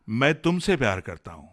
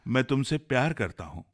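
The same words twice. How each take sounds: First: The stress is on मैं. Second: The stress is on प्यार.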